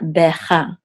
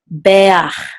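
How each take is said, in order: First: The word ends with the sound 'cha'. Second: The word ends with the sound 'ach'. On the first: The speaker calls it wrong. "not becha" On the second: The speaker calls it right. "So this is beach"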